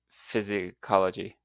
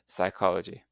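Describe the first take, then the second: First: The initial p sound is pronounced. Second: The initial p sound is silent. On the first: The speaker calls it wrong. "if you were saying these directly, you would say" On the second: The speaker calls it right. "we ignore the first letters and we just pronounce the main sounds"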